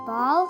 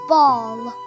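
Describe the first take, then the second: First: The vowel is not the open rounded 'aw'. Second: The vowel is the open rounded 'aw'. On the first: The speaker calls it wrong. "Is it ball? No" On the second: The speaker calls it right. "it's ball. Open your mouth wide but keep your lips rounded"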